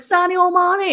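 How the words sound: It is said in a Scouse accent.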